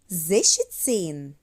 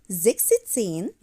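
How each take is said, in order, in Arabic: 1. وسط الكلمة يُنطق بصوت sh. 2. وسط الكلمة يُنطق بصوت k-s. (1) "هنقول زيشتسين" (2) "مش هنقول زيكستين"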